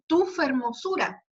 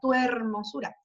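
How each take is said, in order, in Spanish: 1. Un sonido f separa las dos palabras. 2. Las vocales se unen entre las dos palabras. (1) "pero dice tu fermosura" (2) "podríamos ponerlo como sinalefa"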